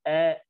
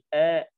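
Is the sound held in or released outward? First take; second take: held in; held in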